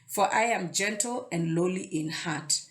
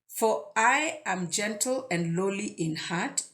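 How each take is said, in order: First: The line is read at a normal pace. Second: The line is read at a slow pace.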